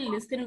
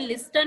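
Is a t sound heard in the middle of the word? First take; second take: no; yes. First: No t sound is pronounced after the s. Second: A t sound is pronounced after the s. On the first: The speaker calls it right. "हम लोग इसे लिसन बोलते हैं" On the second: The speaker calls it wrong. "लेकिन हम इसे लिस्टन नहीं बोलते हैं ना"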